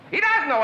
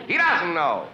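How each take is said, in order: First: Exasperated repeat. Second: Said in the usual way. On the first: Acted. Caller repeats to Marge about her son, exasperated and higher. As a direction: pitch leaps higher on "He doesn't know" in mock disbelief.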